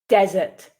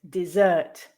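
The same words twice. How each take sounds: First: The stress is on the first syllable. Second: The stress is on the second syllable. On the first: It is used as a noun. "stressing the first syllable with the nouns" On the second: It is used as a verb. "the second syllable with the verbs"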